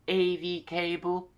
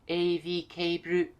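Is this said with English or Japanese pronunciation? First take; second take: English; Japanese. First: It is said with English pronunciation. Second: It is said with Japanese loanword pronunciation. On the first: "if you say A V cable, they'll understand" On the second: "the way that we say that is A V cable"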